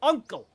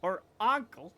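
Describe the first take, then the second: First: Uncle said with a clear uh vowel, ʌŋkəl; correct uncle. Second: Uncle said with a broad ah vowel, ɑŋkəl; ankle-like uncle. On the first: Streamer demonstrates the right Uncle for chat, clear uh vowel. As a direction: say Uncle like UHN-kul. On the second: Streamer mimics the wrong uncle for chat, ah vowel. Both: Shown as a demonstration. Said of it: "Not ankle".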